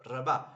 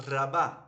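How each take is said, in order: Both takes have the same delivery.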